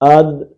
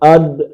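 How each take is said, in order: Both takes have the same delivery.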